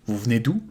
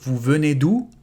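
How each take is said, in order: First: The first e of venez is dropped. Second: The first e of venez is fully pronounced. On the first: It sounds natural and casual. "Very natural" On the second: It sounds more proper. "Or more proper"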